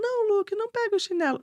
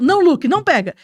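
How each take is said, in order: First: It is said in a soft, mild tone. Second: It is said in a firm, tense tone.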